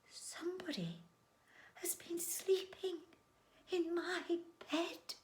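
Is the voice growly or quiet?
quiet. The voice is quiet and gentle. "in a quiet, gentle voice"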